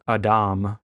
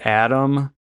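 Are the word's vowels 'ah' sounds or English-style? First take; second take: ah sounds; English-style. First: The vowels are both open ah sounds. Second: The vowels are said the English way. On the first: This is the original Hebrew form of the name. "in Hebrew, it's Adam. So the A's make usually an ah sound" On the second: This is the familiar English form of the name. "We had Adam"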